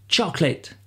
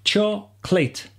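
First: "Chocolate" at normal speed as CHOC-late, the middle O dropped; natural two-syllable chocolate. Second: "Chocolate" said slowly as two syllables, choc-late, the middle O dropped. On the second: Teacher slowly modelling "Chocolate" in two syllables for learners. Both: Shown as a demonstration. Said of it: "On doit entendre que deux syllabes".

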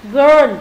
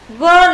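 First: Put-on "Girl" alone, clear er vowel; girl with ơ sound. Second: Put-on "girl" said with the er vowel; teacher models "girl" clearly for the class; girl with ơ sound. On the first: Teacher repeats the word for students, louder. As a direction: model "Girl" slowly, louder. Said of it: "Girl, cô gái là âm ơ". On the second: Teacher models the word for students, clear er vowel. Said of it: "girl là âm ơ". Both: Shown as a demonstration.

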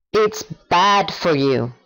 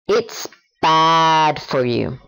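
First: Said in the usual way. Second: Slow, deliberate model sentence. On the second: Shown as a demonstration. Teacher giving a slow example before the learner repeats. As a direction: say each word of It's bad for you slowly and clearly. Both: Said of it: "Ahora tú".

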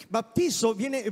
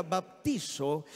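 First: Said in the usual way. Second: Slow Greek word. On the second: Shown as a demonstration. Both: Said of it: "viene de una palabra griega".

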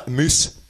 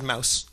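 First: MOOSE for Mouse, Scottish oo vowel; Scottish-accented "Moose". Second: Said in the usual way. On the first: Shown as a demonstration. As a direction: say Moose with a short Scots oo. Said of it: "Or as I said, Moose". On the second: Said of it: "Or as I said".

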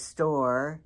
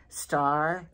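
First: Star said as "store", rounded oh vowel; imitating the husband's "store". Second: Said in the usual way. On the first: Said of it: "he says store". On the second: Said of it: "No, he says store".

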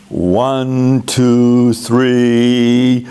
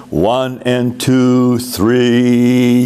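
First: One, two, three counted as beats, evenly; conducting count. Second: One and two, three counted slowly and evenly; slow conducting count. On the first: Choir director counting the beats for singers, evenly. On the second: Choir director counting slowly for singers. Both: Shown as a demonstration. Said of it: "that's how we would count that as we direct".

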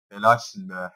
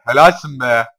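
First: Said in the usual way. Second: "Helalsin" much louder than the first time; loud sarcastic praise. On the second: Real, not acted. Gamer praising his Pokemon, loud mock cheer. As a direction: cheer it out mockingly.

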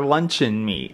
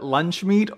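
First: "luncheon meat" said LUN-chun meat; "luncheon meat" offered as second option; luncheon meat, long form. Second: "lunch meat" said as two syllables; "lunch meat" offered as first option; lunch meat, short form. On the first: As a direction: say "luncheon meat" with a middle syllable. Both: Shown as a demonstration. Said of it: "Do you call it".

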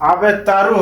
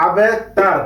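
First: "আবে তারু" with final "u" sounded; wrong unstopped ending. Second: "আবে তার" ending on a vowelless r; correct stopped ending. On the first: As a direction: end "তারু" on "ru". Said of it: "আবে তারু হবে না". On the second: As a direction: drop the final "u", stop "তার" on r. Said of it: "হবে আবে তার". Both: Shown as a demonstration.

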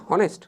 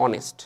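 First: "হনেস্ট" said wrongly with a sounded h; H pronounced. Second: "অনেস্ট" starting straight on the o vowel, no h; lower, softer "অনেস্ট" with the h left silent. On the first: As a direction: put an audible h before the vowel in "হনেস্ট". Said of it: "তোমরা হনেস্ট উচ্চারণ করো অনেকে". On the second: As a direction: drop the h in "অনেস্ট". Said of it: "এটার উচ্চারণ কি". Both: Shown as a demonstration.

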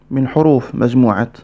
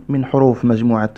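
Both takes have the same delivery.

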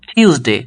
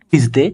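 First: টিউসডে as puffed "thyuz-day"; aspirated Tuesday. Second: Said in the usual way. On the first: Shown as a demonstration. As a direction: puff the t and glide "yu" in টিউসডে. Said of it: "হবে কি". (টিউসডে-কে "ঠিউসডে" উচ্চারণ) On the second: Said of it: "তারপর আমরা যে বলি".

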